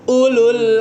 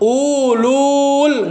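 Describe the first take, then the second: First: The vowel in the second syllable is kept short. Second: The vowel in the second syllable is drawn out. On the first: The speaker calls it right. "tapi ulul azmi ... lulnya langsung ke lamnya" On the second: The speaker calls it wrong. "bukan ulul, nggak gitu"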